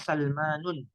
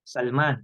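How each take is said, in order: First: The name ends with an added -un sound. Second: The name ends on the bare consonant n. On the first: "tidak boleh bilang Salmanun" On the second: "Kita kan biasanya matikan"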